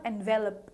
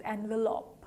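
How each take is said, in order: First: "envelope" as en-VEL-up; quick, soft "envelope" with short last vowel; mispronounced envelope. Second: "envelope" as AN-vuh-lope; soft "envelope" with a full final lope; correct envelope. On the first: Teacher warning learners off wrong envelope, quickly mispronounced. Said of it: "It is not envelope". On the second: Teacher giving learners the right envelope, softly. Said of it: "Envelope is the correct pronunciation". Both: Shown as a demonstration.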